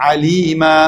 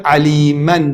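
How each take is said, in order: First: عەلیمە ending on an open long a, no n; pausal long a. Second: عەلیمەن with its final -an fully sounded; tanween pronounced. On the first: Teacher showing how to stop on it, عەلیمە without final n. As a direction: stop on عەلیمە, stretching the last vowel. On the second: Teacher giving the word before stopping, عەلیمەن with sounded n. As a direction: say عەلیمەن ending in a clear n. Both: Shown as a demonstration. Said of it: "لەسەری ڕاوەسن".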